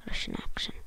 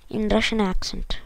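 First: A breathy whisper, no voice. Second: Said in the usual way. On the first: Shown as a demonstration. Gamer whispers the phrase back after saying it aloud. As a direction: whisper the words to yourself.

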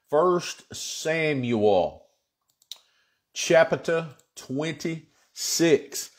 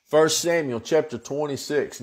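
First: Word by word, with long pauses; slow announcement. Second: Said in the usual way. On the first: Real, not acted. Pastor announcing the chapter to congregation, slow announcement. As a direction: stretch out each word of the reference.

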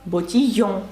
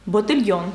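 First: "ботіййон" with a y glide, no l; French pronunciation. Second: Said in the usual way. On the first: Shown as a demonstration. Teacher showing a familiar word in French, French pronunciation. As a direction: say "ботіййон" with a nasal French ending. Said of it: "Знайоме для вас слово".

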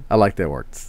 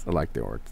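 First: Said in the usual way. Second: Softer and lower, half to himself; quiet echo. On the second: Real, not acted. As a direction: repeat it under your breath. Repeats the line as echo.

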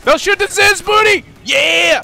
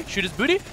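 First: Very high, loud gamer shout; real over-excited high scream; excited yelling. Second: Said in the usual way. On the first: Real, not acted. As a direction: yell the order, carried away with excitement. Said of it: "Sorry, I yelled. ... I just get too excited". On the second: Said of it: "Sorry, I yelled".

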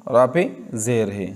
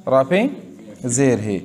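The two takes are said the same way.

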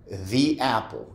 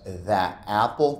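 First: The said as "thee" before apple. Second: The clipped to "thuh" before apple. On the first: Teacher models The as "thee" before a vowel. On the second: Teacher shows the wrong "thuh apple". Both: Shown as a demonstration. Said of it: "No dirías the apple".

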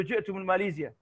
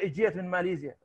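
First: جئت said in full classical form, jetu; formal Arabic. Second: جئت said as colloquial jet, no final vowel; Iraqi colloquial. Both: Shown as a demonstration. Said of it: "هذا بالعامي يعني".

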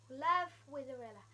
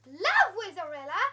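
First: Said in the usual way. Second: "Love Wizarilla?" much louder, rising in disbelief; shocked loud question on the sign; surprised question. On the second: Real, not acted.

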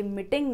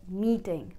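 First: मीटिंग with a short i, mɪʈɪŋ; मीटिंग said the wrong way, short clipped i. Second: मीटिंग with a long ee, miːʈɪŋ. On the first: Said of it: "तो ये मीटिंग नहीं". (मीटिंग छोटी इ के साथ) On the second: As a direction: stretch the ee in मीटिंग. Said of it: "long ई का sound है". (मीटिंग लंबी ई के साथ) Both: Shown as a demonstration.

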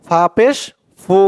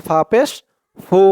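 Both takes have the same delivery.

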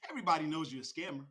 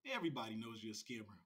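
First: Said in the usual way. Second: Much softer and lower; low muttered repeat. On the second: Real, not acted. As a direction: say it under your breath, falling away. Same accusation repeated under his breath.

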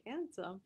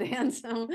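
First: Handsome? asked back with a doubtful questioning tune; puzzled question. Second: Handsome. stated firmly and louder, falling; firm reply. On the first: Asking the guides back about the tree, puzzled. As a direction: echo Handsome? in disbelief. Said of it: "I was like". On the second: Spirits answering her doubt about the tree, louder and firm. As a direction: insist on Handsome. with a final fall. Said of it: "They said". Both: Retold or imitated.

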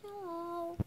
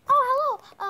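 First: Soft, timid greeting; a small, hesitant hello; scared, shy. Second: Loud, high, bursting hello; eager greeting. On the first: Scared pony greeting a stranger after mom's urging, shy. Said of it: "I'm scared, Mom". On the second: Pinkie Pie greeting a shy new pony, eager. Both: Pretend.

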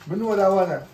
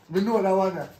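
Both takes have the same delivery.

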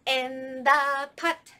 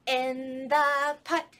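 Both takes have the same delivery.

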